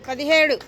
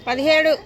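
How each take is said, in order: Both takes have the same delivery.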